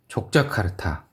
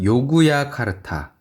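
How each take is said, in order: First: The name begins with a j sound. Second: The name begins with a y sound.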